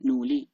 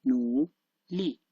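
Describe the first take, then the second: First: Said in the usual way. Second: Nuli slowly, as separate nu and li; syllable by syllable. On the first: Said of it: "when I pronounce like full". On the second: Shown as a demonstration. Teacher demonstrating nuli individually, slow separated syllables. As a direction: stretch nu, pause, then li on its own tone. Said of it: "when I pronounce it like individual".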